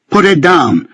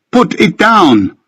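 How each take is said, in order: First: Screamed order. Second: High, drawn-out slow scream; screamed plea. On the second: Benjamin screaming in Ricky's ear to put it down. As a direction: scream it, dragging every word. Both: A narrator's reading. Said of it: "screaming it in my ear".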